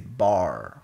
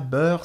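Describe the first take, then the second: First: The word is said with a Quebec accent. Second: The word is said in standard French. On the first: The speaker calls it right. "c'est bar" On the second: The speaker calls it wrong. "C'est pas beurre"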